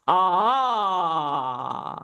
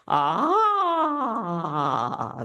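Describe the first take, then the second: First: A strong, lower sound resonating in the chest. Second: A higher, lighter sound resonating in the head. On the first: "that's your sternum area. You want strength there with your voice" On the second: "let's make it go a little bit higher, like you're going into your head voice"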